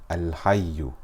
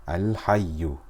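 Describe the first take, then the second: The two takes are said the same way.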